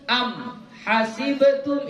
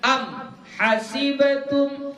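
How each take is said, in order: The two takes are said the same way.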